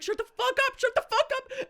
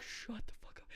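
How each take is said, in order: First: High, laughing "Shut the fuck up" with rising panic; panicked mock shriek. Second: Whispered "Shut the fuck up" through clenched fear; urgent whisper. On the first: Scared cousin shushing drunk friend at gas station, high laughing panic. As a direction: squeal it half laughing in fake terror. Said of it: "and I was like". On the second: Retold or imitated. Cousin whispering at drunk friend near homeless man, urgent whisper. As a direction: hiss "Shut the fuck up" under your breath. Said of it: "And I'm like".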